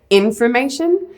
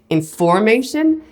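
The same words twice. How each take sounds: First: The stress is on the first syllable. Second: The stress is on the second syllable.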